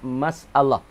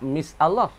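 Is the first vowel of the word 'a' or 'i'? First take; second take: a; i. First: The first syllable is said with an 'a' vowel. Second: The first syllable is said with an 'i' vowel. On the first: The speaker calls it right. "Baca masalah tu. Dengan fathah" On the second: The speaker calls it wrong. "Bukan empat misalah"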